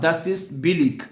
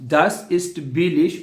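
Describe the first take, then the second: First: The final sound of the last word is hard. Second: The final sound of the last word is sh.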